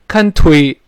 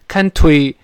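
First: The t sound is strong and clearly released. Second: The same.

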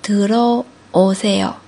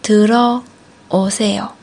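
Both takes have the same delivery.

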